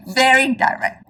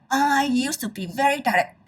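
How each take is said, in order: First: Chuckling through very direct; amused self-admission; laughing repeat. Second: Said in the usual way. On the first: Real, not acted. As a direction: laugh at yourself while saying very direct.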